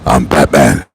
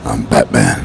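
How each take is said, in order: First: Deep, low Batman growl. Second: Deep, low Batman growl again; gravel-free low hero line. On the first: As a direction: rumble it like the caped hero. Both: Retold or imitated. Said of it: "funny when he said that on the movie".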